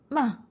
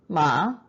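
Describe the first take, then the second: First: The pitch falls sharply from high. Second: The pitch rises from mid to high.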